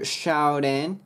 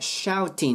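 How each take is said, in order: First: The t is a soft, r-like flap. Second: The t is a clear, crisp t sound. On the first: The speaker calls it right. "次が母音の時はラ行に変わるT" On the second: The speaker calls it wrong. "shouting ではなく"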